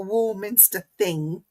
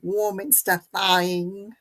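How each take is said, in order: First: It is said in the speaker's ordinary accent. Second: It is said with an exaggerated accent twang.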